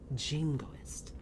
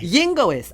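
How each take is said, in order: First: The word begins with a J sound. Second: The word begins with a Y sound. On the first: The speaker calls it right. "you pronounce it with a J" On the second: The speaker calls it wrong. "she calls it the yingoist"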